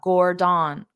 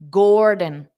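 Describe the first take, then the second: First: Both syllables get equal stress. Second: The first syllable is louder and longer. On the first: The speaker calls it wrong. "this is saying it as da da" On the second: The speaker calls it right. "pronounce the gore louder and longer, and then the din very fast"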